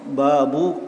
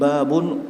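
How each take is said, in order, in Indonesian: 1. Kata ini berakhir dengan bunyi -u pendek. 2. Kata ini berakhir dengan bunyi -un. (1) "dalam bentuk mudhaf" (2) "dengan tanwin babun"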